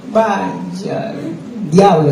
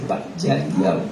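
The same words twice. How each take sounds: First: Retold exclamation. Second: Much lower and much softer; low hushed "vaya, diablo"; muttered under breath. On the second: Retold or imitated. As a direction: mutter it to yourself in dread. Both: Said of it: "yo dije así".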